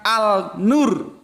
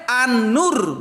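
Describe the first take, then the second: First: The article is said as a plain 'al'. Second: The article blends into the n sound. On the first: The speaker calls it wrong. "bukan Al-Nur" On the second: The speaker calls it right. "Kalau menurut gue An-Nur"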